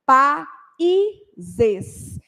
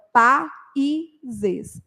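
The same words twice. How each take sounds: First: Pa e zes, each syllable slow and separate; split into syllables. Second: Pa e zes again broken into syllables; split into syllables. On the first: Teacher showing students the syllables pa e zes. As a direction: spell out pa e zes beat by beat. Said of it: "Eu falo". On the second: Teacher repeating pa e zes syllable by syllable for students. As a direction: sound out pa e zes slowly. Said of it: "Então, pa e zes". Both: Shown as a demonstration.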